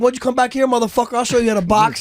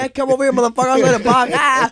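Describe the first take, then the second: First: High-pitched retold challenge; playful comeback. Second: High, louder hammed-up challenge ending in a yell; playful mock threat. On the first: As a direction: toss back a mock threat, voice raised. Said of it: "Yeah, that sounds playful". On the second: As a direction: act out a rowdy comeback, pitched way up. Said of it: "but in my voice".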